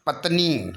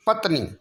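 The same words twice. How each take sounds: First: पत्नी with a held nee; long final ee. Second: पत्नी with a brief ni; short final i. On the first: Teacher giving the correction, पत्नी with long nee. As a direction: stretch the end of पत्नी. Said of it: "बल्कि बड़ी की मात्रा". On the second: Teacher showing the error, पत्नी with short ni. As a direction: clip the end of पत्नी. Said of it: "छोटी की मात्रा नहीं". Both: Shown as a demonstration.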